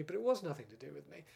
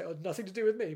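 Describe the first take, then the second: First: "was" stressed with a rise, said in earnest; sincere insistence. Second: Mock craven disclaimer, a bit louder; craven excuse. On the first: Real, not acted. Insisting he had no part in the script, stress on "was". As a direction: lean on "was" to insist it was true. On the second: Shrugging off blame for the Time and the Rani script, mock craven. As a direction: brush off the blame in a put-on craven tone. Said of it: "it's a bit craven of me, isn't it, to say".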